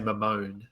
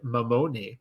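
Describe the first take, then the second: First: The name is said with an anglicized pronunciation. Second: The name is said with an Italian-style pronunciation. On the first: This is a simpler version for convenience. "just because it's easier" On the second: This is the name's original pronunciation. "as I said"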